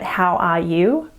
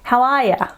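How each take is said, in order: First: The last word is a full 'you' sound. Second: The last word is reduced to a short schwa. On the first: "when you're in your country, you've learnt how are you" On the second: "they take this sound here and they turn it into the schwa sound"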